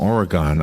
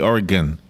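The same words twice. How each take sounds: First: The last syllable is a full "gon". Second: The last syllable is a weak "gun". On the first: The speaker calls it wrong. "I always say it wrong. ... I always say the gon" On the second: The speaker calls it right. "It should be Oregon, right?"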